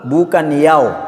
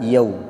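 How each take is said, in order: First: The vowel after y sounds like o. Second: The vowel after y sounds like u. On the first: The speaker calls it wrong. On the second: The speaker calls it right. "yang betul adalah yau"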